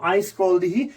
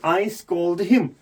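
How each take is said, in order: First: Said in the usual way. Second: Very slow, each word spelled out; slow correction. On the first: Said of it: "मैं यहाँ पर नहीं लिख सकता हूँ". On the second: Shown as a demonstration. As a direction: dictate the right form slowly, I scold him. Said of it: "नहीं". (धीरे धीरे सही वाक्य बोलना)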